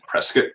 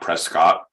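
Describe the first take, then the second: First: The name is said the local way. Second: The name is said as it is spelled. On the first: The speaker calls it right. "it's pronounced Prescott" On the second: The speaker calls it wrong. "It's not Prescott, even though it's spelled that way"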